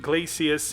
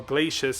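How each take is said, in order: First: Glacius said as GLAY-see-us; GLAY-see-us pronunciation. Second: Glacius said as GLAY-shus; GLAY-shus pronunciation. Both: Shown as a demonstration. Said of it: "however you pronounce his name".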